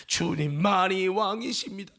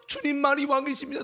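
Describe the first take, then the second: First: Sung, slow worship line; sung, sustain it like a hymn; sung confession. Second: Higher spoken profession, without singing; declared confession. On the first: Shown as a demonstration. Sung confession before rebuttal. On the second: Retold or imitated. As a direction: recite it earnestly before the rebuttal. Confession repeated before rebuttal.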